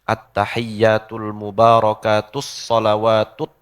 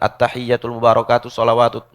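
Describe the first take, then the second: First: The doubled consonants are held long and clearly. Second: The doubled consonants are said short, not held. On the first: The speaker calls it right. "Kudu dibaca tasdidnya" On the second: The speaker calls it wrong. "Enggak bisa tuh"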